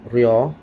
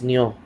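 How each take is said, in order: First: The syllable starts with a light R-like sound. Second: The syllable starts with an N-like sound. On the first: "R plus yo, that's ryo" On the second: "they pronounce it as nyo. Almost N nga sound"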